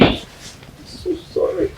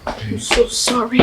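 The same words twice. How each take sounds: First: A slow, breathy whispered sorry. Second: Said in the usual way. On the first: Acted. Ogechi consoling her grieving friend, slow whisper. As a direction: whisper it slowly, full of pity.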